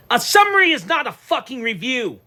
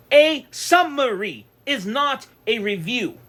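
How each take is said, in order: First: Louder and higher, hammering the point; said loud and clear. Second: Slow, deliberate, every word spaced; slow reiteration. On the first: Ranting to his viewers, loud and emphatic. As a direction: slam it down so nobody misses it. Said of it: "I'm gonna say it clearly". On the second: Restating his point to viewers, slow and deliberate. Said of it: "let me reiterate this". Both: Real, not acted.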